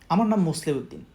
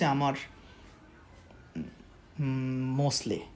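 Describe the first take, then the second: First: It is said smoothly without stopping. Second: It is said haltingly with hesitant pauses.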